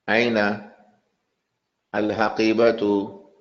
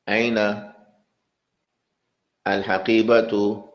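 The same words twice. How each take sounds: No difference in how they are said.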